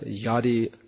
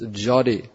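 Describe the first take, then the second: First: The word begins with a Y sound. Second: The word begins with a J sound. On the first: The speaker calls it wrong. "not yadi" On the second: The speaker calls it right. "That's jadi"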